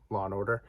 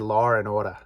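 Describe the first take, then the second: First: It is spoken in a standard American accent. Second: It is spoken in a Boston accent, without the r in order.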